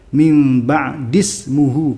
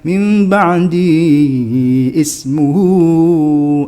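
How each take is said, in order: First: The words run together without a separate vowel. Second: A separate vowel starts the second word. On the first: The speaker calls it right. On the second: The speaker calls it wrong.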